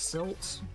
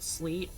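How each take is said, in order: First: The name sounds like silt. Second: The name sounds like sleet. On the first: "I think it's supposed to be pronounced silt" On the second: "sometimes I pronounce it sleet"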